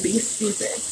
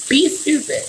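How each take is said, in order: First: A quiet, sarcastic throwaway; muttered aside. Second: Pitched-up repeat. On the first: Telling listeners to go ahead, muttered softly. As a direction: drop it soft under your breath. Repeats the phrase, dropping voice. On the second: Daring listeners to be stupid, pitched higher. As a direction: lift it higher and hang on it. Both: Real, not acted.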